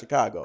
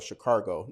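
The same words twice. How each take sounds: First: The word is said without any added R sound. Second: The word is said with an added R sound. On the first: This is the word they intend to say. "but they're saying in their mind Chicago" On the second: This is how old-school locals say it. "old school Detroiters call it Chicago. Now, where the R come from, I don't know"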